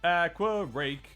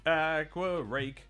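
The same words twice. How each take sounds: The two takes are said the same way.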